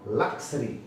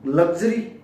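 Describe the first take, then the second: First: The middle consonants sound like k and s. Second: The middle consonants sound like g and z. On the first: The speaker calls it right. "लक्सरी है" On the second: The speaker calls it wrong. "लग्जरी accommodation नहीं"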